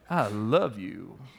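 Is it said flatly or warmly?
warmly. It is said warmly, with real feeling.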